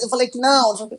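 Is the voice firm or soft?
firm. It is said in a firm, harsh scolding voice. The speaker disapproves and is angry. The speaker calls it wrong. "bronca falando forte, firme"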